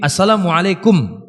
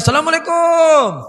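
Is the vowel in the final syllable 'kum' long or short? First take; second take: short; long. First: The vowel in the final syllable is short. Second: The vowel in the final syllable is drawn out long. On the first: The speaker calls it right. "Setelah kaf itu langsung mim. ... Itu yang betulnya" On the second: The speaker calls it wrong. "Cuma orang kita aja ... itu sudah keluar dari koridornya"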